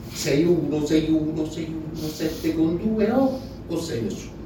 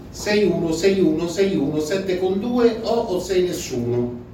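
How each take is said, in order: The two takes are said the same way.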